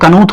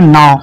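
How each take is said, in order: First: A k sound is said before the n. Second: The k is silent; it starts with n. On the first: The speaker calls it wrong. "यहाँ भी इसको कनू थोड़ा पढ़ेंगे" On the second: The speaker calls it right. "इसको पढ़ेंगे नाव"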